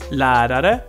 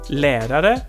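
First: The first vowel is open, like a. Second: The first vowel is closed, like e. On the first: The speaker calls it right. "etwas offener" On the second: The speaker calls it wrong. "Nicht Lehrer"

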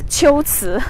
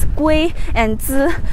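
First: The first syllable starts with a ch-like sound. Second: The first syllable starts with a hard g sound. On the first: This is the reading used for the ancient place name. The speaker calls it right. "the right way to pronounce the two characters is Qiuzi" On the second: This is the everyday reading of the characters. The speaker calls it wrong. "can be pronounced as Gui and Zi"

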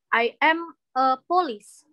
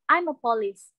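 First: Each word is said separately, without linking. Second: The words run together in one linked chunk. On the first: The speaker calls it wrong. "jangan bilangnya I am a police" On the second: The speaker calls it right. "kalian kayak gabung-gabungin kayak"

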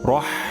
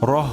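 First: The h sound comes from mid-throat. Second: The h sound is light, not from the throat. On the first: The speaker calls it right. "এটা উচ্চারণের স্থান হরকের মাঝখান" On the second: The speaker calls it wrong. "রহ হবে না"

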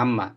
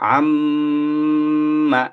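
First: The double m is short without a nasal hum. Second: The double m is held with a nasal hum. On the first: "মূলত উচ্চারণ হলো আম্মা" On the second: "এই যে আম বলে এখানে নাকে আমি গুনগুন করলাম"

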